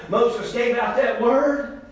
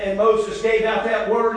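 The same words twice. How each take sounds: First: Each word laid down slowly; slow, weighty repeat. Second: Said in the usual way. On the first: Shown as a demonstration. Preacher repeating it slowly for the church. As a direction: let it land, slow and deliberate. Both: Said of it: "Listen, church".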